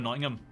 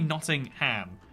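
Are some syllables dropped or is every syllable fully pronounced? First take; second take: dropped; full. First: Some syllables are squeezed together or dropped. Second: Every syllable is pronounced in full. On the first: This is how people actually say it. "people just go Nottingham" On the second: This is how the spelling suggests it should sound. "that should be Nottingham"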